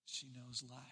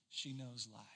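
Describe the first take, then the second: First: Softer echo. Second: Said in the usual way. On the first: Shown as a demonstration. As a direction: repeat She knows life after a pause, even softer.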